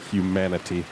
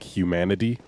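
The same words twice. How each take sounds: First: The T is pronounced clearly and deliberately. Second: The T is pronounced like a D. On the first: The speaker calls it right. "I have to actually think to pronounce correctly" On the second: The speaker calls it wrong. "use a D sound in place of a T"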